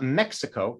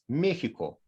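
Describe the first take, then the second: First: The x is said as a ks sound. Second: The x is said as a throaty rasp. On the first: The speaker calls it wrong. "It's not Mexico" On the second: The speaker calls it right. "like uh, people from Mexico say Mexico"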